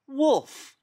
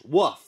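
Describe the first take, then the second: First: The word is pronounced in a careful, deliberate way. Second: The word is pronounced in a careless, mangled way. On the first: The speaker calls it right. "I will pronounce it properly" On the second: The speaker calls it wrong. "I can't say Wolf"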